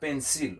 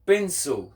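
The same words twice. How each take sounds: First: PENCIL as "pen-seal", full "ee" and L; mispronounced PENCIL. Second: PENCIL as "pen-so", high with a dark ending; correct pronunciation of PENCIL. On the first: Teacher warns learners what not to say, PENCIL as "pen-seal". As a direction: end PENCIL on a clear "seal". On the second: Teacher models the word for learners, PENCIL as "pen-so". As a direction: end PENCIL on a vowel-like "so". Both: Shown as a demonstration. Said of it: "not pencil".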